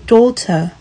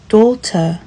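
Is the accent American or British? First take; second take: British; British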